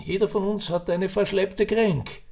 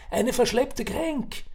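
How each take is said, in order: First: Put-on raised old Viennese voice, Kränk in passing; old man's saying. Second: Verschleppte Kränk slowed and lifted high, verschleppte stressed; explaining the word. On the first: Old man to Ferdinand, casual Viennese wisdom. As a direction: toss off verschleppte Kränk as common wisdom. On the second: Acted. Old man explains the word to a puzzled Ferdinand, slowly. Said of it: "Eine was?".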